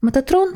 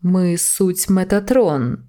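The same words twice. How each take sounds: First: Said in the usual way. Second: Slow, solemn heavenly voice; voice of God. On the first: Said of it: "Не плутати з голосом Божим". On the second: Acted. Metatron announcing himself to the angel, slow and solemn. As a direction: proclaim slowly, like a divine herald. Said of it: "Глас Божий".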